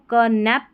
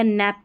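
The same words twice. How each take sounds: First: क नैप with a separate "ka" first; K sounded. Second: नैप starting straight on N; silent K. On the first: Teacher quizzing learners with the misreading, क नैप with K sounded. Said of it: "क नैप पढ़ेंगे या नैप पढ़ेंगे". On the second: Teacher offering the other reading, नैप with silent K. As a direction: say नैप with no "ka" before it. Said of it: "के silent है". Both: Shown as a demonstration.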